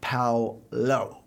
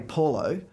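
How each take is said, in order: First: The name is said with a Pacific Island pronunciation. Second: The name is said with an English pronunciation. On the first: This is how the name's owner wants it said. The speaker calls it right. "but apparently it is Paulo" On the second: This is how the name is commonly said. The speaker calls it wrong. "So we say Paulo"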